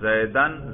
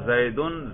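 First: The word ends in -an. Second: The word ends in -un. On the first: The word is the object of the verb. "نصب پڑھ رہے ہیں" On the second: The word is the subject of the sentence. "اس پر آپ رفع پڑھ رہے ہیں"

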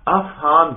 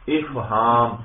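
First: The word begins with an 'a' vowel. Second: The word begins with an 'i' vowel. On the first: It is a plural meaning understandings. "جب حمزہ پر فتحہ ہو تو یہ جمع کے اندر آتا ہے" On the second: It is a verbal noun meaning making someone understand. "حمزہ کے نیچے زیر ہو تو یہ مصدر ہے باب افعال کا"

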